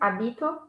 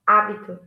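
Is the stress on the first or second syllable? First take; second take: second; first. First: The stress is on the second syllable. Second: The stress is on the first syllable.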